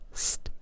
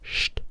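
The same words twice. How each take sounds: First: The sound is said the non-German way. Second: The sound is said the German way. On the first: "instead of st" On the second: "In Germany, we say st"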